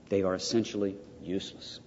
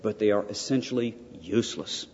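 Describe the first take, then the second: First: Softer, weighted repeat on THEY. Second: Said in the usual way. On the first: Real, not acted. Lecturer repeating to students that images are useless, softer. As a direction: repeat it quietly so it lands.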